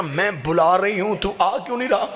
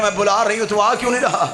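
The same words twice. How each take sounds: First: Put-on mournful question to the boy, held back; tearful plea. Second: Desperate tearful plea. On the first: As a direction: plead through tears, still restrained. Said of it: "बीबी ने रो के कहा". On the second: Acted. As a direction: cry out the plea again, more urgent. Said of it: "बीबी ने कहा".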